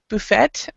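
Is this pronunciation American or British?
British. It is said the British way. "a lot of mostly British, will pronounce uh, this word exactly how you are saying it"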